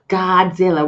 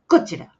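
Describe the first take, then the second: First: It is said with the mouth wide open. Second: It is said with the mouth nearly closed. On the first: "we're catching flies and open up your mouth" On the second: "It's not so much opening the mouth"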